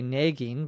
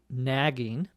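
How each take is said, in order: First: It is said in a Minnesota dialect. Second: It is said in standard American pronunciation.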